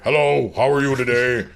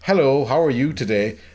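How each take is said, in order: First: It is said in an exaggeratedly deep voice. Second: It is said in a normal speaking voice. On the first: "in the movie he's like" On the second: "speaking normally"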